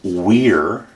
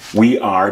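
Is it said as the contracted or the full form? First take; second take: contracted; full. First: It is said as one short contracted syllable. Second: It is said as two full separate words.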